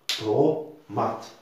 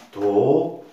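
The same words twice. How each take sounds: First: Said in the usual way. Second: "Tomate" broken loudly into to... ma... te; loud three-beat "Tomate", final "te" on its own; syllable by syllable. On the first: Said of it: "combien de syllabes". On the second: Shown as a demonstration. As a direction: punch out each syllable of "Tomate" with long gaps. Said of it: "nous avons trois syllabes".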